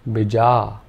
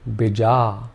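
First: Only the second vowel is long. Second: Only the second vowel is long.

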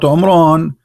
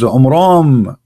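First: The name ends with an N sound. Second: The name ends with an M sound. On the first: The speaker calls it wrong. "not N" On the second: The speaker calls it right. "the last letter is M"

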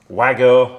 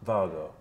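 First: The name is said the American way. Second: The name is said the official way. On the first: This is how some Americans say it. The speaker calls it wrong. "as our American friends sometimes say" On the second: This is the official pronunciation. The speaker calls it right. "It's most definitely Vargo"

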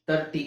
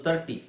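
Both takes have the same delivery.

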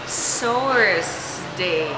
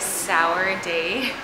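First: The first syllable ends with an s sound. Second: The first syllable has no s sound. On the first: The speaker calls it right. "it should be pronounced sour's day" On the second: The speaker calls it wrong. "So I kept saying, hello is sour day"

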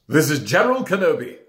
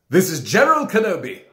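First: The voice is pitched low and deep. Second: The voice is pitched somewhat higher. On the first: "maybe that needs to be a little bit deeper" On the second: "A little bit higher"

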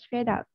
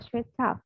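First: It is said with an American accent. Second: It is said with a British accent. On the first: "hiện tại chị đang dùng anh Mỹ" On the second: "Thì anh mình sẽ là straight up"

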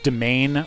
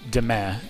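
First: The word has an English-style pronunciation. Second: The word has a French-style pronunciation.

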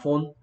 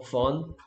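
First: The vowel is a rounded 'oh' sound. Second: The vowel is an open 'uh' sound. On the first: The speaker calls it wrong. "이거 폰 아니야" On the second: The speaker calls it right. "유, 우, 어 중에 어 됐네요"

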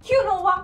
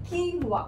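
First: It is said in three syllables as kyunova. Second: It is said in two syllables as keenwa. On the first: The speaker calls it wrong. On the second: The speaker calls it right.

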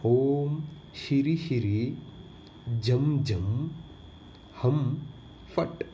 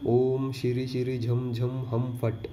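First: The phrase is said slowly and carefully. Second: The phrase is said quickly.

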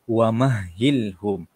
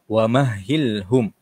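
Both takes have the same delivery.

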